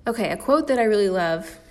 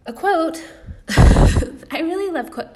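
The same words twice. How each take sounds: First: Said in the usual way. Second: High, loud, giddy squeal with laughter; giddy laughing. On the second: Real, not acted. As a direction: burst out laughing, pitched way up. Giddy outburst about a quote.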